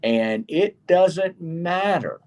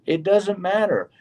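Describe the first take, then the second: First: Doesn't drawn out slowly and stressed; slow emphatic "doesn't matter". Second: Said in the usual way. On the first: Real, not acted.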